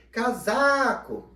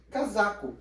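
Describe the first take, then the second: First: CASACO called high and loud with a long SA; calling out, stretched syllable. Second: Said in the usual way. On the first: Shown as a demonstration. Teacher calling a friend at his house, Casaco stretched on SA. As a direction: call Casaco slowly, holding SA. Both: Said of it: "A parte que eu mais demoro".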